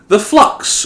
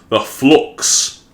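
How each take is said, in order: First: It is said in the speaker's own accent. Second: It is said imitating the characters' accent.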